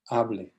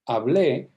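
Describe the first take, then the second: First: The stress is on the first syllable. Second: The stress is on the last syllable. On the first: It is a command to speak. "the stress would shift to here and it would become a command" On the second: It means I spoke, in the past. "this accent mark tells the reader to stress it on the last syllable"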